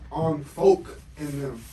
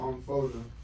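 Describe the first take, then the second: First: Every syllable is said fully and clearly. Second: The middle syllable is dropped and run together. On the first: The speaker calls it wrong. "if you articulate yourself, it's on folk in them. But you don't say it like that" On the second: The speaker calls it right. "you say it on folk them, because it's easier"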